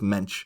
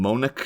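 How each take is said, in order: First: The name ends with a sh sound. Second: The name ends with a k sound. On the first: The speaker calls it right. "no, it's Mensch" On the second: The speaker calls it wrong. "I always kept calling him Monic"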